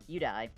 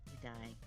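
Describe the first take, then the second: First: It is said bluntly and loudly. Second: It is said gently and softly.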